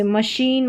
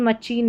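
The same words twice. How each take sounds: First: मशीन said with sh, ma-sheen; मशीन not with ch; correct pronunciation. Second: मचीन said with ch, ma-cheen; मचीन with a hard ch in the middle; मचीन as the mistaken ch form; wrong pronunciation. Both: Shown as a demonstration. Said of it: "मचीन नहीं".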